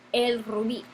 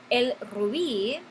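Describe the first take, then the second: First: Said in the usual way. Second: "el rubí" said slowly, leaning on the final bí; slow teacher demo with "rubí" stressed at the end; careful classroom model of "rubí", stress on the last syllable. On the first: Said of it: "es un sustantivo agudo". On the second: Shown as a demonstration. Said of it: "con énfasis en la última sílaba".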